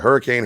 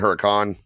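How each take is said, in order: First: It sounds like the English word hurricane. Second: It is said without the English i sound. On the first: "If it was a Hurricane" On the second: "there's no I, so I'm kind of saying Huracan"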